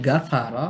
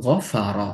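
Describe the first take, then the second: First: গাফারা with a thin গ and open আ; light letter, wrong. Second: গফারা with a deep, heavy গইন and a dark vowel; heavy Arabic letter. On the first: Teacher showing the mistaken light গাফারা. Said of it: "উচ্চারণ যেমন পরিবর্তন হবে". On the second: Tajweed teacher demonstrating the correct heavy গফারা. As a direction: say গফারা low and full in the throat. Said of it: "এটাকে যদি আমি বলি গাফারা". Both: Shown as a demonstration.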